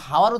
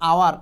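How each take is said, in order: First: The word begins with an h sound. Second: The word begins directly with a vowel. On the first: The speaker calls it wrong. "নাকি এটাকে হাওয়ার উচ্চারণ করেন আপনারা এখানে এইচ এর উচ্চারণ কিন্তু হয় না" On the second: The speaker calls it right. "So এটার উচ্চারণ হচ্ছে আওয়ার"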